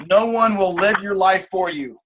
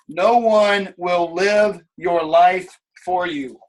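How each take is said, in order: First: Said in the usual way. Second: Each word spaced out and heavy; slow, weighty repeat. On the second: Shown as a demonstration. Coach to team, repeating slowly for weight. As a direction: let it sink in slowly.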